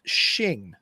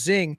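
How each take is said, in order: First: The name starts with an sh sound. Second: The name starts with a z sound. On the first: The speaker calls it right. "is actually pronounced Xing" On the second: The speaker calls it wrong. "I would have thought it was pronounced Zing"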